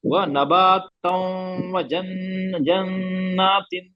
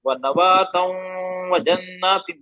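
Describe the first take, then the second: First: व नबातों व जन्नातिन drawn out very slowly, doubled न held; teacher reciting व नबातों व जन्नातिन joined, very slow; joined recitation. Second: व नबातों व जन्नातिन read at normal pace, joined; teacher repeating व नबातों व जन्नातिन at normal speed; normal-speed recitation. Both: Shown as a demonstration. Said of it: "अगर हम इसको मिला के पढ़ना चाहें".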